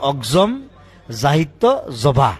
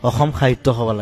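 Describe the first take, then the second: First: It has a ks sound and ends with zaba. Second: It has no ks sound and ends with sabha. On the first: This is how an outsider reads the English spelling. The speaker calls it wrong. "বাহিৰৰ মানুহে যদি পঢ়ে ... তেতিয়া সেইটো হ'ব" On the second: This is the name as it should be said. The speaker calls it right. "অসম সাহিত্য সভা লাগে"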